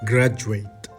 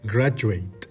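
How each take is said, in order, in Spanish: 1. La 'du' se dice con el sonido 'joo'. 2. La 'du' se dice con el sonido 'joo'.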